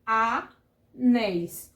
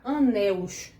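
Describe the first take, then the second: First: "anéis", drawn out with an -éis ending; correct plural. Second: "anéus", ending in a -us glide; wrong plural. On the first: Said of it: "fica como". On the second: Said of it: "a gente não dá pra botar". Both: Shown as a demonstration.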